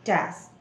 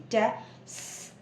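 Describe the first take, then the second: First: Said in the usual way. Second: "टेस" split into टे and a long separate sss; sounds broken apart. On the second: Shown as a demonstration. Teacher shows the double sound, broken off separately. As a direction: say "टेस" very slowly, hiss the s on its own. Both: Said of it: "अलग से break करूँगी".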